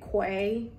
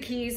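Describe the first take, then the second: First: It starts with a kw sound, like 'kway'. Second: It starts with a plain k sound, like 'key'. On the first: The speaker calls it wrong. "my whole time I was pronouncing it Quay, like Shaquay" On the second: The speaker calls it right. "It's the Keys"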